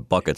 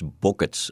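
First: The word is said in an American accent. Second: The word is said in an Irish accent. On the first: "as we say in America" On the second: "my favorite word that comes out of your mouth when that beautiful Irish accent invades the space"

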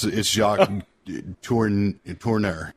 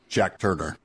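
First: The name is said with French pronunciation. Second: The name is said with English pronunciation. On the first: "those pretentious French pronunciations" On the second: "I prefer to call him Jack Turner"

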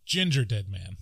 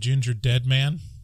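First: The stress falls on the syllable ginger. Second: The stress falls on the syllable dead. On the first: It sounds like a pun on gingerbread. The speaker calls it right. "Instead of Gingerdead Man" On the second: It sounds like a dead red-haired man. The speaker calls it wrong. "Because I put the emphasis on dead"

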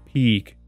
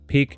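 First: The vowel is long and drawn out. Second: The vowel is short, like in pick. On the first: The speaker calls it right. "Give that E more time. Say it longer" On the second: The speaker calls it wrong. "I often hear it with a short E"

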